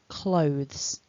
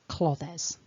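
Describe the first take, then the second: First: The word is said as one syllable. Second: The word is split into two syllables. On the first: The speaker calls it right. "It's one chunk" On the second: The speaker calls it wrong. "It's not clothes, ever"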